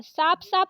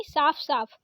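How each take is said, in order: First: साफ साफ said as saap saap; wrong प for फ. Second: साफ साफ ending in f; correct फ. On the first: Teacher showing the mistake, साफ साफ with plain p. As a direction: close the lips on p in साफ. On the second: Teacher correcting it, साफ साफ with f. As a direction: let air through the फ in साफ. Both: Shown as a demonstration. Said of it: "साफ साफ नहीं साफ साफ".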